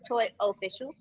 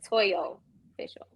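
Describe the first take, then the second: First: The first word is said as 'toy'. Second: The first word is said as 'toyo'. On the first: The speaker calls it right. "but it's two words" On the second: The speaker calls it wrong. "It's like Toyo Official"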